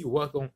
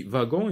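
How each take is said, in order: First: Wagon said as ouagon with a w; with a w sound. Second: Wagon said as vagon with a v; with a v sound. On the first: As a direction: say wagon starting with a w glide. (wagon prononcé avec ou) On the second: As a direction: say wagon starting with v. (wagon prononcé avec un v) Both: Shown as a demonstration. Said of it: "on dit wagon et on dit wagon".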